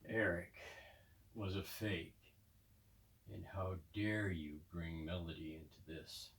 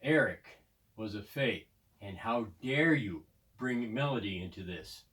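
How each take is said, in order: First: It is said in a low, gravelly voice. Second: It is said in a plain voice.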